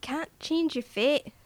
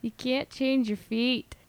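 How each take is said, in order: First: Slow, higher Scottish lilt rising at the end; convincing mock Scottish brogue; Scottish accent. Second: Put-on slow, tentative Celtic accent with "fate" as "feet"; half-successful mock Celtic accent; weak accent attempt. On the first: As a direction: put on a confident Scottish accent. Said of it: "You just wanna go Scottish". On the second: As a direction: have a shaky go at a Celtic accent. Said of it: "I can't do it. Not very well".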